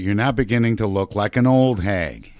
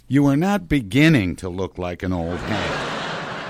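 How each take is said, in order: First: The word beginning is not stressed. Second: The word beginning is stressed.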